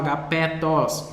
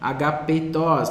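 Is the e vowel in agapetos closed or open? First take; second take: open; closed. First: The e vowel is said open. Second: The e vowel is said closed. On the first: The speaker calls it wrong. "não agapetos" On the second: The speaker calls it right. "ele tem um som fechado"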